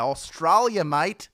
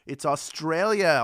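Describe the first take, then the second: First: Loud, hammed-up Australian accent; terrible Australian accent. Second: Said in the usual way. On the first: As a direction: put on a bad Aussie accent. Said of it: "That was a terrible accent".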